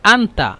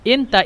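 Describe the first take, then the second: First: The first vowel is an open a sound. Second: The first vowel is an e sound. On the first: This is the standard formal language. "আন্তা যদি বলেন এটা হলো মানে ফুসহা" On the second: This is the regional Egyptian dialect. "এটা হলো মানে আঞ্চলিক ভাষা, মিশরের আঞ্চলিক ভাষা"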